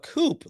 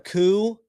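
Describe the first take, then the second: First: The word ends with a clear 'p' sound. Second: The word ends on a vowel with no 'p'. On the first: The speaker calls it wrong. "a coop, like a chicken coop" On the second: The speaker calls it right. "Clearly they'd be they're talking about a coup"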